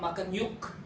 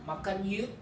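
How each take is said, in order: First: The final k sound is clearly pronounced. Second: The final k sound is left out. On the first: The speaker calls it wrong. "That's not natural in Bahasa Indonesia" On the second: The speaker calls it right. "the ke sound is omitted"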